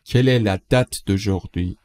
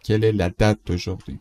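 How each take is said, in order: First: Slow, deliberate question; slow model read. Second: Said in the usual way. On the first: Shown as a demonstration. Teacher models the French question slowly for learners. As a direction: lay out each word slowly. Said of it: "teacher models the question slowly". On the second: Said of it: "repeat at normal speed".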